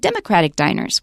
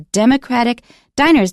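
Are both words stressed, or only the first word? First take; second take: first; both. First: Only the first word carries the stress. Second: Both words carry equal stress. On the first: The phrase is treated like a compound noun. The speaker calls it wrong. "Don't say Democratic Diners" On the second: Democratic describes the diners as an adjective. The speaker calls it right. "we stress both Democratic and diners"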